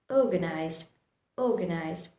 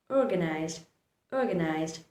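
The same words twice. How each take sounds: No difference in how they are said.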